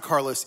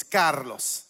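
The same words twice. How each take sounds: First: Said in the usual way. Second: "Carlos" said the Spanish way; Spanish-accented "Carlos", not Anglicized; Spanish pronunciation. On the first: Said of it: "remember how to pronounce my name". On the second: Shown as a demonstration. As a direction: pronounce "Carlos" as a native Spanish name. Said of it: "it's not Carlos, it's Carlos".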